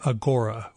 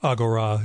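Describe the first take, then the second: First: The name is said in an ordinary English way. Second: The name is said in an ancient Greek way.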